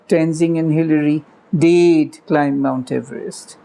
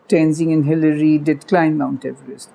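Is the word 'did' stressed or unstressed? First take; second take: stressed; unstressed. First: The word did is said with strong emphasis. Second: The word did is said without any emphasis. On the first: "the emphatic version" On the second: "unstressed version ... with the did unstressed"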